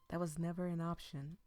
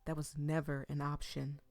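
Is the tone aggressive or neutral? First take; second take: neutral; aggressive. First: It is said in a neutral, mild tone. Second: It is said in an aggressive, forceful tone. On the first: The speaker calls it wrong. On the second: The speaker calls it right.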